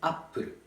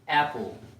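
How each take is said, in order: First: It is said with a Japanese accent. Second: It is said with an English accent. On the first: "So it's apple, apple in Japanese" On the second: "in English, this is apple"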